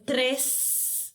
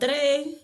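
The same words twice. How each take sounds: First: The word is said in a non-Cuban way. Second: The word is said in a Cuban way. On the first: This is the form she cannot manage to say. "no poder decir tres" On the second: This is the form she still uses from her roots. "y digo tres"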